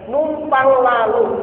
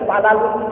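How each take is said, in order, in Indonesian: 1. Kedua kata diucapkan dengan jelas dan lengkap. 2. Diucapkan cepat, menyusut jadi tiga suku kata.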